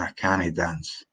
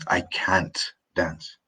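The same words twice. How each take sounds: First: Scots "cannae" in two syllables. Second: Said in the usual way. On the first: Shown as a demonstration. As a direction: demonstrate Scots, can't becoming "cannae". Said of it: "In Scots, we say". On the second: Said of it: "For example, I say".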